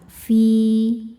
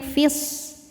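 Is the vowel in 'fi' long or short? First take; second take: long; short. First: The vowel is held long. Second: The vowel is short and runs on. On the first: The reciter stops on this word. "Cara bacanya panjang dua harokat" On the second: The reciter continues into the next word. "maka fi ini kita baca pendek"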